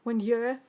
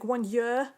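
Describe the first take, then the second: No difference in how they are said.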